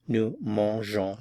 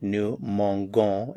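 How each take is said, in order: First: The g is soft, like zh. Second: The g is hard, like in go. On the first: The speaker calls it right. "we add the E and then the O N S" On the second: The speaker calls it wrong. "I would have to pronounce it nous mangeons, and of course that is not the correct form"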